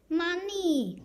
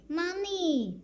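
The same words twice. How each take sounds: No difference in how they are said.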